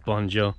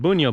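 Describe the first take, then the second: First: The name is said with a non-Croatian pronunciation. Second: The name is said with a Croatian pronunciation. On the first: This is how the name is actually said by its owner. "but this is Bonjo" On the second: This is how locals would say the name. "as they would pronounce it"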